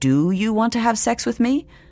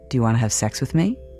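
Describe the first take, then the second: First: It is asked in a neutral, clinical tone. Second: It is asked in a suggestive, flirtatious tone.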